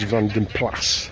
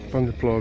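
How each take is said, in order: First: The name ends with an s sound. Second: The name ends without an s sound. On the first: This is the original Flemish way of saying it. The speaker calls it right. "I think the correct pronunciation is Van den Plas" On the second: This is the common English way of saying it. The speaker calls it wrong. "we say Pla"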